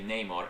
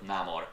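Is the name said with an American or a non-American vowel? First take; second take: American; non-American. First: The first vowel has a flat American sound. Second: The first vowel has an open non-American sound. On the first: The speaker calls it wrong. "for anyone to say Namor instead of" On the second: The speaker calls it right. "instead of Namor"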